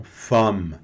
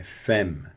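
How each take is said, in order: First: Femme as fam with nasal a; wrong nasal femme. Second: Femme with open e, fem; correct femme. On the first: Teacher repeating the wrong femme for students. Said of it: "e não femme". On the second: Teacher repeating the correct femme for students. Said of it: "é femme". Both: Shown as a demonstration.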